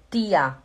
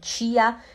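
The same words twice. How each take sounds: First: It is said in a Pernambuco accent. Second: It is said in a Belém accent. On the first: "em vez de ser tia" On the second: "lá no Belém do Pará a gente fala ti"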